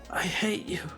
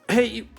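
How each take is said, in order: First: It is said at a normal, unhurried pace. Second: It is said very quickly.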